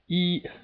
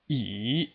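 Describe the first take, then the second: First: The pitch stays high and level throughout. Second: The pitch dips in the middle, then rises. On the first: "It's just a straight line, and it's a very stable sound" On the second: "there's a slight dip in the middle"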